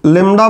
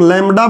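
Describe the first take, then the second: First: "लेमडा" with a closed e vowel; first pronunciation. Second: "लैम्डा" with an open ai vowel; variant pronunciation. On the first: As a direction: say "लेमडा" as lem-da. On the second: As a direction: say "लैम्डा" as laim-da. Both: Shown as a demonstration. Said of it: "कुछ लोग लैम्डा बोलते हैं".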